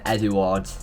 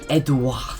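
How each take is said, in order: First: It is said with an English accent. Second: It is said with a French accent.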